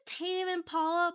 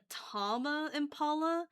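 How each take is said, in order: First: The first word is said with one syllable. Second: The first word is said with two syllables. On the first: This is how the name is usually said. "Is it is it Tame Impala?" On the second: This is the speaker's own habitual way of saying it. "for some reason I pronounce it like Tama Impala"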